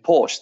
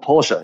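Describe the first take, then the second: First: The name is said the anglicized English way. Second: The name is said the original German way. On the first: The speaker calls it wrong. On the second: The speaker calls it right.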